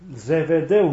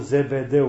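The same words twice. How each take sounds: First: The name is said with a V sound. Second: The name is said with a B sound. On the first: This is the old Greek-based form. The speaker calls it right. "În loc de B este tot una V" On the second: This is the form used nowadays. The speaker calls it wrong. "cum zic acum"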